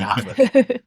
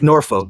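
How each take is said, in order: First: It is said the local Virginia way. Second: It is said in a general accent.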